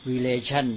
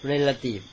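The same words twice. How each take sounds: First: Relation said with the stress on the middle syllable, re-LA-tion. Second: Relative said with the stress on the first syllable, RE-la-tive. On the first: Monk showing students where relation takes its stress. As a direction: demo relation with the weight on LA. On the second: Monk contrasting relative with relation for his students. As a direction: demo relative with the weight up front on RE. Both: Shown as a demonstration. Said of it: "เน้นคนละที่ ออกเสียงคนละอย่าง".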